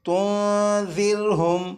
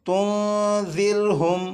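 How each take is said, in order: No difference in how they are said.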